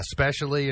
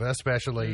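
First: SPECIALLY with no opening vowel; mispronounced especially. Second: Said in the usual way. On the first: Shown as a demonstration. Host listing mistakes, SPECIALLY without its opening E. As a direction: drop the first E so it is SPECIALLY. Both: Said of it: "instead of especially".

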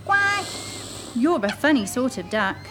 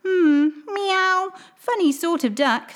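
First: Lightly voiced puzzled mother duck; a mild head-shaking mother. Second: Much higher musing meow; cat. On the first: Mother duck telling her odd chick, lightly puzzled. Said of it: "she said". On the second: Acted. Old cat judging the duckling, musing. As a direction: purr it out like a doubting cat. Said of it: "said the cat".

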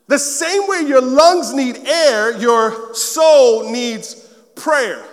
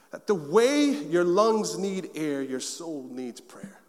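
First: Slow, louder, with "soul" stressed; "soul" held long and strong; preached quote. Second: Slow, dropping to soft on soul needs prayer; "soul" stressed, quiet and slow; slow quote delivery. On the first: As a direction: preach it so it rings. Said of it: "this quote". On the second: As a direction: let the quote land gently. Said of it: "share this quote with you". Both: Shown as a demonstration.

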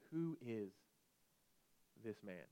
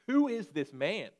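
First: Much softer, awed and frightened; softer and softer, awestruck disciples asking; hushed fear. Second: Slow, loud and higher, asking with awe; a preacher's ringing challenge to the room; booming question. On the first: Retold or imitated. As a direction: breathe it out in fear. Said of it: "again, afraid". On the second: Acted. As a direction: lean in and boom the question out slowly. Preacher poses the big question.

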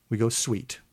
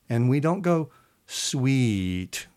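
First: Said in the usual way. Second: Sweet stretched long and slow; drawn-out sweet. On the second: Shown as a demonstration. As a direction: hold the vowel in "sweet" long. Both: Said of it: "I'm not holding the word sweet any longer".

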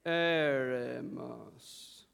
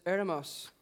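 First: "Eremos" extremely drawn out, low, on one note; slow monotone. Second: Said in the usual way. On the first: Shown as a demonstration. Preacher leading the congregation to sound intelligent, slow monotone. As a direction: intone "Eremos" very slowly, like a holy chant. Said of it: "allow your voice to become monotone".

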